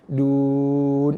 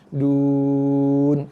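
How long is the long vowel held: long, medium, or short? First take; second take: medium; long. First: The long vowel is held for four counts. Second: The long vowel is held for six counts. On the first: "Ataupun empat" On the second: "Ataupun enam"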